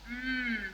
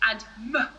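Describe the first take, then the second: First: The sound is pure, with no added vowel. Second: The sound ends with an added uh vowel. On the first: The speaker calls it right. "when it should be m" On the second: The speaker calls it wrong. "A common mistake is to add the uh to sounds"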